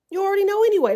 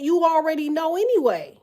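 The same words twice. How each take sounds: First: Higher and louder, pressing the point home; louder, higher repeat. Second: Said in the usual way. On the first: Shown as a demonstration. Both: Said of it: "repeated louder".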